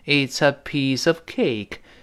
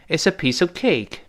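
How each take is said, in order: First: The sentence is said at a normal pace. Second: The sentence is said at a faster pace.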